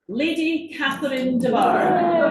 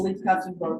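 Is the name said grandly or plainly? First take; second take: grandly; plainly. First: The name is said in a grand, dramatic way. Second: The name is said in a plain, ordinary way.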